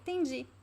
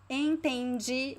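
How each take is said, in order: First: The word is shortened, dropping its first sound. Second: The word is said in full, every syllable. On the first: "this is a very common reduction" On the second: "Instead of saying entendi"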